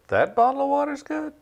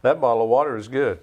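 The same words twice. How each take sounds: First: "water" and "good?" much higher, sceptical rise; doubtful question. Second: Said in the usual way. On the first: Shown as a demonstration. Repeating the demo on request, incredulous rising question. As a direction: ask "good?" as if you can't believe it. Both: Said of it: "Do that again".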